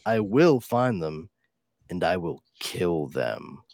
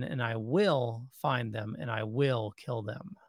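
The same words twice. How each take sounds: First: Slow, "I will find them" with the weight moved off "will"; corrected stress. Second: "will" leaned on in each clause; stress on will. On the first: Correcting a friend's reading, slow corrected stress. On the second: Reading the comic, stress on "will". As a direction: stress "will" instead of "find" and "kill". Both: Shown as a demonstration. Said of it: "You put the emphasis on the wrong word there".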